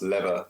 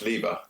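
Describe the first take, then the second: First: The name is said in an American-style pronunciation. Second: The name is said in the speaker's own accent. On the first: "Maybe in America, Lever is pronounced lever" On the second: "I pronounce it [name]"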